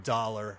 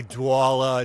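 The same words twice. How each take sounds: First: Said in the usual way. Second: "Douala" for dollar, in a thick Boston accent; "Douala" with an exaggerated Boston W glide and no R; deep Boston pronunciation. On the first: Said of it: "instead of dollar". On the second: Shown as a demonstration. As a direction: say "Douala" with a drawn-out Boston "aw" vowel. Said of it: "usually I go really deep".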